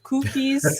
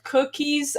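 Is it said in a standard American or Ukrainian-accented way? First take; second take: Ukrainian-accented; standard American. First: It is said with a Ukrainian accent. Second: It is said with a standard American accent.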